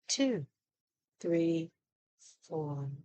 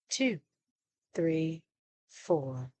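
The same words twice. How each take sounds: The two takes are said the same way.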